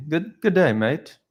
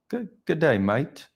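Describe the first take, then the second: First: High-pitched, hesitant stab at a British accent; British accent attempt. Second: High-pitched Australian-sounding greeting, mate as "mite"; botched British accent that lands in Australia; British accent slipping Australian. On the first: Streamer embarrassedly trying a British accent for a viewer. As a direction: try a British greeting, swooping down from high. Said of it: "British accent, I'm almost embarrassed". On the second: Streamer retrying British for a viewer, accent turning Australian. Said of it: "Is that more Australian?". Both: Shown as a demonstration.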